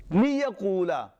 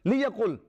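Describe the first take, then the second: First: Liyaqula said slowly, with an extra a at the end; slip, extra vowel. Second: Liyaqul said with no vowel after the final l; corrected liyaqul, ending on the consonant; corrected form. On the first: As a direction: draw out Liyaqula and end on the open a. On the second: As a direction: close liyaqul cleanly on the l. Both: Shown as a demonstration. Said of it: "Sorry, liyaqul".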